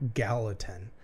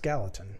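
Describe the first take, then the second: First: The name is said slowly and clearly. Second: The name is said very quickly.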